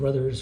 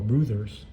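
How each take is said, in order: First: The first vowel sounds like the vowel in 'brother'. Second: The first vowel sounds like the vowel in 'brew'. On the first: The speaker calls it wrong. "sometimes I pronounce it Brothers" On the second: The speaker calls it right. "it's pronounced Bruthers, like Bru, B R O O"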